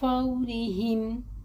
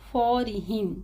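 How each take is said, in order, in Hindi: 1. पहला स्वर एक नरम, तेज़ और गोल सरकन है। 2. पहला स्वर भारी, सपाट और झटके वाला है। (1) "होठों को गोल भी करना है और जल्दी भी और नरमी से पढ़ना है" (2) "नहीं पढ़ना"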